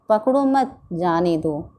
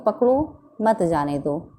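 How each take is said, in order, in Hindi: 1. विराम दूसरे शब्द के बाद है। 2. विराम पहले शब्द के बाद है। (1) "इस वाक्य में बच्चे को बाहर जाने जाने को कहा गया है" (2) "इन दोनों वाक्यों में बच्चे को बाहर जाने से रोका गया है"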